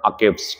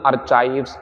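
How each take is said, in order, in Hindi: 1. बीच का व्यंजन 'k' की तरह बोला जाता है। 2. बीच का व्यंजन 'ch' की तरह बोला जाता है। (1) "इसे अकाइव पढ़ना है, आर साइलेंट करना" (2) "इसे ना अर्चाइव्स आर्चीव्स ना पढ़ के"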